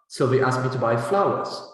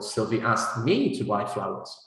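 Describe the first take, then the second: First: The main stress falls on flowers. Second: The main stress falls on me. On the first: It answers what was to be bought. "what did Sylvie ask you to buy?" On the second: It answers who was asked, not someone else. "not you"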